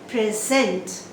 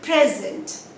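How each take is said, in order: First: The stress is on the second syllable. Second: The stress is on the first syllable. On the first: It is a verb. "on the second syllable if it is a verb" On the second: It is a noun. "This is a noun. You stress on the first syllable"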